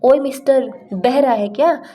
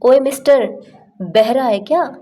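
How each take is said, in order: First: Higher, rude taunt; with attitude. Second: Louder, higher rude call; with attitude. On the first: Stubborn person won't make way, rude and higher. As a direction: taunt him for not hearing. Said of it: "ऐसे बोलते हैं ना". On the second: Annoyed at a stubborn person blocking the way, rude and loud. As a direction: snap at him for not moving. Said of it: "थोड़े attitude में आते हैं". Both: Shown as a demonstration.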